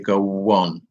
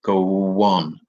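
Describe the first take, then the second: First: A w sound links the two words together. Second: A w sound links the two words together.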